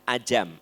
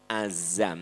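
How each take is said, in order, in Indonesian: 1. Konsonan di tengah itu bunyi j. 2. Konsonan di tengah itu bunyi z. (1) "Bukan ajam" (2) "Azam. Z"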